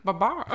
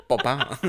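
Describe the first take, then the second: First: Brian Bedondi voice; lightly voiced prank caller; posh flamingo voice. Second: Laughing two-beat bird noise; flamingo text tone. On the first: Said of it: "Why do I sound like Brian Bedondi". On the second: Retold or imitated. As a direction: copy the flamingo sound. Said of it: "The Xanthi flamingo text tone".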